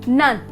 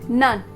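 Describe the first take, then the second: Both takes have the same delivery.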